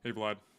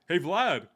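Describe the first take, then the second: First: It is said in a flat, monotone voice. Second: It is said in a lively, familiar voice.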